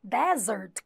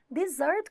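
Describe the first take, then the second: First: "Desert" said DEzert, stress on the first syllable. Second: "Dessert" said di-ZERT, stress on the last syllable, rising. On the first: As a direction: say "Desert" with the open e first: DÉ-zert. ("Desert" com tônica na primeira sílaba, DÉ-zert) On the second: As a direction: stress the end of "Dessert": di-ZÉRT. ("Dessert" com tônica na última sílaba, di-ZÉRT) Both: Shown as a demonstration. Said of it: "a palavra desert e a palavra dessert".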